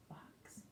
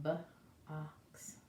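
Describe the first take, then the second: First: Box whispered as one smooth word; blended whisper. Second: B-ox split into two parts, soft; sounded out. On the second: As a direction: sound out B-ox slowly like for a child. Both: Shown as a demonstration. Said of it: "You see that?".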